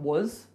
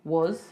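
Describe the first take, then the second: First: The vowel is reduced to a weak uh. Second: The same.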